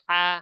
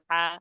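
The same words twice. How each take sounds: The two takes are said the same way.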